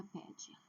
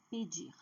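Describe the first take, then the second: First: Pedir stressed on PE, with weak -dir; wrong stress. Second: Pedir with a strong, long -DIR; stress on last syllable. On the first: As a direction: misstress pedir on its first syllable. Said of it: "não é pedir". (pedir com a primeira sílaba forte) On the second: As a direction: lean on the final syllable of pedir. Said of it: "a última sílaba é forte". (pedir com a última sílaba forte) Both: Shown as a demonstration.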